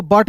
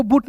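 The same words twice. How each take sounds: First: बट with a short uh; correct pronunciation. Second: बूट with an OO vowel; wrong pronunciation. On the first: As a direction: say बट as "buht", no u sound. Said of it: "बीयूटी को बट पढ़ेंगे". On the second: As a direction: say but as "boot", बूट. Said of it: "बूट नहीं पढ़ेंगे". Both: Shown as a demonstration.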